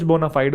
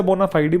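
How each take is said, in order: First: बोनाफाइड stopping on the d; d-ending pronunciation. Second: बोनाफाइडी with a final ee; ee-ending pronunciation. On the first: Teacher showing the form the class will use, बोनाफाइड ending on d. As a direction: say बोनाफाइड with no final vowel. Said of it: "कुछ बोनाफाइड बोलते हैं". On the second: Teacher showing how some people say it, बोनाफाइडी ending in ee. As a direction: add an ee after the d in बोनाफाइडी. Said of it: "कुछ लोग इसे बोनाफाइडी बोलते हैं". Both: Shown as a demonstration.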